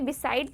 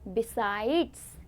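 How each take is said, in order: First: The word ends without a final s sound. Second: The word ends with a final s sound. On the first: The speaker calls it wrong. "कई लोग इसे भी बिसाइड pronounce करते हैं, पर वो गलत होता है" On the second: The speaker calls it right. "इसकी प्रोनाउंसिएशन क्या होती है बच्चों"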